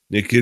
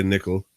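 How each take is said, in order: First: Nikhil said with an accent, not as nickel; name with an accent. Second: Said in the usual way. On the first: Shown as a demonstration. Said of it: "say it with, uh, the accent". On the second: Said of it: "I can't just say nickel".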